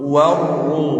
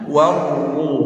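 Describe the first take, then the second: Both takes have the same delivery.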